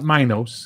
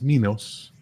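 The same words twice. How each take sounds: First: The first vowel is a long I sound. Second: The first vowel is a short I sound. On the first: The speaker calls it wrong. "It's not Minos" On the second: The speaker calls it right. "It's not a long I. It's Minos"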